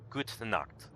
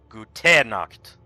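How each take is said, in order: First: The final e of Gute is soft and subtle. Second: The final e of Gute is strongly stressed. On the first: The speaker calls it right. "the e at the end is subtle" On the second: The speaker calls it wrong. "you don't put the emphasis on that syllable"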